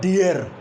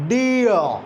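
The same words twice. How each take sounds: First: "dear" with the final r sounded; wrong pronunciation. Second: "dear" as gliding "dee-uh", silent r; correct r-less pronunciation. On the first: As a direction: show the mistaken "dear", r pronounced at the end. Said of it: "It's not dear". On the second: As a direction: model "dear" with no r at the end. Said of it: "R is silent". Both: Shown as a demonstration.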